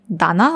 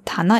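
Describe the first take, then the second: First: The word begins with a voiced D sound. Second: The word begins with a voiceless T sound. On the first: The word is joined to another word before it. "Steht es zusammen in Kombination mit dem Hon, dann ändert sich die Aussprache auf Da" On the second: The word stands on its own. "Aber nur wenn es alleine steht, dann spricht man es Ta aus"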